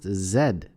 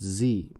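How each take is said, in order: First: The letter is said the Canadian way, zed. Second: The letter is said the American way, zee.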